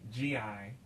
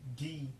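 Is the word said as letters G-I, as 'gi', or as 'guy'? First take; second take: letters G-I; gi. First: It is spelled out as two letters. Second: It is said as one syllable, not 'guy'. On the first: The speaker calls it wrong. "or G I" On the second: The speaker calls it right. "but the actual word is gi"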